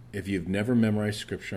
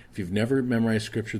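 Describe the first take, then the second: First: Said in the usual way. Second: Faster and pushed, stress on never; emphatic repeat. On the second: Shown as a demonstration. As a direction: drive the line home, hitting never hard.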